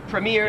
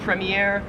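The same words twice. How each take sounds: First: It is said in an American accent. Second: It is said in an Australian accent.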